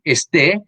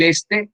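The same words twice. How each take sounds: First: "este" stressed on the last syllable, es-TÉ; slow "este" with the final E accented; stress on second E. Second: "este" stressed on the first syllable, ÉS-te. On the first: Teacher contrasts accent placements for students, final-syllable stress on "este". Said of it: "con tilde en la segunda E". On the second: Teacher contrasts accent placements for students, first-syllable stress on "este". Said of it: "Con tilde en la primera E". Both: Shown as a demonstration.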